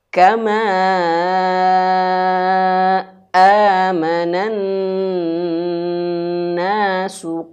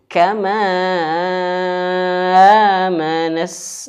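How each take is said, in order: First: The voice stops sharply before the vowel. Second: The words run together without any stop. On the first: The speaker calls it right. "supaya betul-betul terputus suara di situ" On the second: The speaker calls it wrong. "Jangan kama manas"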